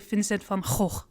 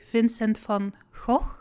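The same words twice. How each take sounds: First: It uses the hard northern Dutch G sound. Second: It uses the soft southern Dutch G sound.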